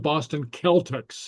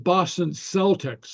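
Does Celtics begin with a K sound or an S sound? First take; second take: K sound; S sound. First: Celtics begins with a hard K sound. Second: Celtics begins with a soft S sound. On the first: The speaker calls it right. "it's the Boston Celtics" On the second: The speaker calls it wrong. "it's not the Boston Celtics"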